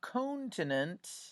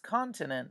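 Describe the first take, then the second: First: The O is a long vowel sound. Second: The O is a short vowel sound. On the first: The speaker calls it wrong. "It's not continent" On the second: The speaker calls it right. "it's continent, so it's short"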